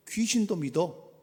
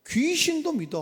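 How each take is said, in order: First: Said in the usual way. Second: Higher, louder rebuke of the believer; scolding outburst. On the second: Acted. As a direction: throw it at him as a sharp reproach. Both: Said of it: "이렇게 나오는 거야".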